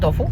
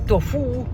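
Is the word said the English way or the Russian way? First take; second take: English; Russian. First: The word is pronounced the usual English way. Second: The word is pronounced the Russian way. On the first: "but anyway, it's tofu" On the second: "In Russian they say tofu"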